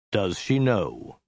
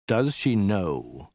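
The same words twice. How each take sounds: First: Very slow, deadened delivery; slow and lifeless warlord; low, dead voice. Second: Very slow, understated hiss; slow, controlled warlord threat; menacing hiss. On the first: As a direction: draw it out slowly, with no life in it. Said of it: "he said at length in a low, dead voice". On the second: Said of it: "he hissed". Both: A narrator's reading.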